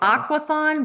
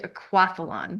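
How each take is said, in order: First: It is said without an L sound. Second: It is said with an L sound. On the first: The speaker calls it wrong. "People say" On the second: The speaker calls it right. "but it's really aquathlon"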